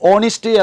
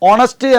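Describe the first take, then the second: First: The second syllable has an 'ih' vowel. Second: The second syllable has an 'uh' vowel. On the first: The speaker calls it right. "Correct pronunciation is ഓണിസ്റ്റ്" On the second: The speaker calls it wrong. "നമ്മൾ പലരും ഓണസ്റ്റ് എന്നാണ് ഉച്ചരിക്കുക"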